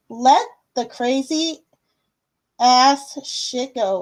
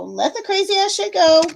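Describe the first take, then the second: First: Slow, deliberate delivery with pauses; slow card reading. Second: High, playful run through the phrase; playful repeat. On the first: Host reading Cake's card aloud, slow and deliberate. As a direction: spell it out slowly, phrase by phrase. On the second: Host repeating Cake's card, playful high voice. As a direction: repeat it higher, in one go. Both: Acted.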